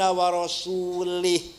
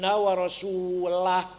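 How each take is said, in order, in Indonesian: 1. Kata terakhir berakhir dengan bunyi 'ih'. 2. Kata terakhir berakhir dengan bunyi 'ah'. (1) "Ada orang baca Quran salah" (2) "Bacanya harus"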